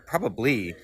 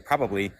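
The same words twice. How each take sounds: First: It is said with a special, marked tune. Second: It is said with a plain, ordinary tune. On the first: It seems likely, but neither person is certain. "when you say probably, it means something like, I agree that it seems likely" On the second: The speaker thinks it is likely. "You could say probably"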